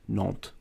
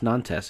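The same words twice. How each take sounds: First: The name is said in French style. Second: The name is read out in American style. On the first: The speaker calls it right. "no, it's Nantes" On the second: The speaker calls it wrong. "the American brain in me sees a team"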